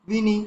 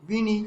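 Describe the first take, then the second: Both takes have the same delivery.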